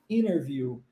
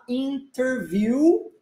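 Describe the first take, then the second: First: The T sound after the N is dropped. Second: The T sound after the N is pronounced.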